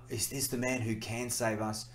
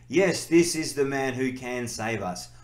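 First: It sounds doubtful and questioning. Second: It sounds confident and certain.

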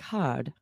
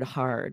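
First: The R in the word is barely pronounced. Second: The R in the word is clearly pronounced. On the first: This is how some other accents say it. "That's just a very soft R in other accents" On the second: This is how most American accents say it. "you might almost not hear that R at all at the end of words or like in the word hard"

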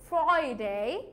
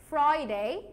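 No difference in how they are said.

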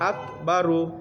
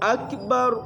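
First: The word ends with an added u vowel. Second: The word ends on the r consonant. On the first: The phrase continues without a stop. The speaker calls it wrong. "তাহলে এইখানে আক বারু হবে না" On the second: The speaker stops at the end of the phrase. The speaker calls it right. "যদি আমরা এনে থামবি বা অক্ষ করি তাহলে এইভাবে হবে"

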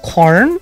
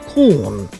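First: It is said in an American accent. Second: It is said in a British accent. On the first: "American corn" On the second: "British corn"

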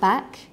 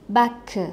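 First: The word ends cleanly on its final consonant. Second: An extra vowel syllable follows the final consonant. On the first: The speaker calls it right. "instead of saying back" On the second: The speaker calls it wrong. "adding an extra syllable at the end of the word"

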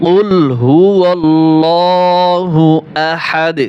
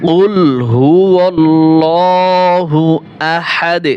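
No difference in how they are said.

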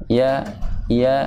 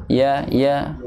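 Both takes have the same delivery.

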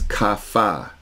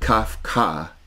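First: No k sound is heard mid-word. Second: A k sound is heard mid-word. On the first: The speaker calls it right. "it's Kafa. Kafa, two syllables" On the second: The speaker calls it wrong. "It's not Kafka"

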